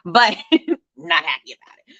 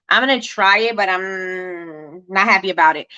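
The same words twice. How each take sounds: First: Laughing through the words. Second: Reluctant. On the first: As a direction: chuckle while repeating it. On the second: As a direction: drag it out unwillingly. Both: Real, not acted.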